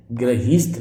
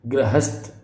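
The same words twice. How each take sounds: First: गृहीस्थ with "heest"; long i in the second syllable of गृहीस्थ; wrong pronunciation shown. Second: गृहस्थ with "hast"; short a in the second syllable of गृहस्थ; correct pronunciation shown. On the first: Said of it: "गृहीस्थ नहीं होता". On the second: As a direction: say गृहस्थ as "gra-hasth". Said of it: "गृहस्थ होता है". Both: Shown as a demonstration.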